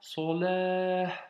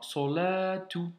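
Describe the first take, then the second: First: The word ends with a breathy 'ah' sound. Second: The word ends with a full 'tu' syllable. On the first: "Il y a un petit vent après Salah" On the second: "s'écrit so, excuse-moi, Salatu"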